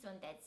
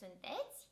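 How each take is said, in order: First: The stress is on the first syllable. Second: The stress is on the second syllable. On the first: This is the form linguists recommend. "with a stress on the first syllable" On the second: This is common in the Moldova region. "stress the second syllable"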